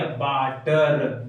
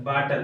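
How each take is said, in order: First: water stretched very slowly, each syllable held; drawn-out word. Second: Said in the usual way. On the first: Shown as a demonstration. (Water को बहुत धीरे खींचकर बोलना) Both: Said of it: "इसके आगे क्या लग गया?".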